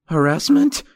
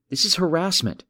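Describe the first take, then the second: First: High, louder alarmed echo of Harassment; rising, startled Harassment, pitched up a notch; voice shooting up. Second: Said in the usual way. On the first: Acted. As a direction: fling Harassment back up high in disbelief. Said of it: "His voice shot up a notch".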